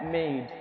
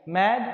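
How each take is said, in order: First: "मेड" with a gliding "ए-ई", as in English made; long A vowel. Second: "मैड" with an open "ऐ", as in English mad; short A vowel. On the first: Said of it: "ए ई पढ़ते हैं". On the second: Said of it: "एक बार फिर पढ़ लेते हैं". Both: Shown as a demonstration.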